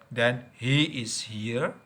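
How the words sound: The verb is said in full and stressed.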